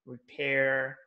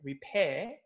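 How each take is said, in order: First: "repair" with a strong American R; American accent. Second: "repair" with a silent British R; British accent. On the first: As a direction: sound the final R firmly in American "repair". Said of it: "they use R in the strong sounds". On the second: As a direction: end "repair" on an open British "peh". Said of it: "they don't, they don't really". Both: Shown as a demonstration.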